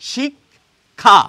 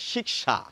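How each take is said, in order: First: The k is followed by a kh sound. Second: The k is followed by an sh sound. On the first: "ক এবং খ আসছে।" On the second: "হিন্দিতে কিন্তু এটিকে বলা হয় শিক্ষা, ক এবং মূর্ধন্য শকে খুঁজে পাওয়া যায়"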